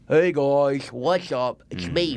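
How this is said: The voice is cartoony and comedic.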